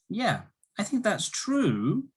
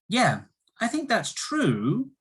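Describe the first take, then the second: No difference in how they are said.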